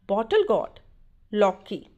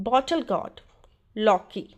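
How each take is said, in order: No difference in how they are said.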